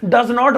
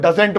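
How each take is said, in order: First: Not is said as a separate full word. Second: Not is contracted onto the verb. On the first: "डज नॉट बोलना हो" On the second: "तो डजेंट बोल दो"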